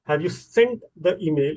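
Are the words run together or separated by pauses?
separated. Each word is separated by a clear pause. People do not usually speak this carefully. "इतना clearly रुक के लोग नहीं बोलते"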